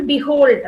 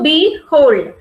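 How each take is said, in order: First: Said in the usual way. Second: "behold" slowly broken into be, hold, louder; split into syllables. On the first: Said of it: "So now syllables, here we see". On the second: Shown as a demonstration. Teacher showing two syllables, "behold" slowly divided be-HOLD. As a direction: say "behold" as two separate syllables, stretched and firm. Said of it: "So we have two syllables".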